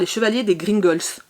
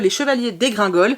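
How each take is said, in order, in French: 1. Le titre se prononce à l'anglaise. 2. Le titre se prononce à la française.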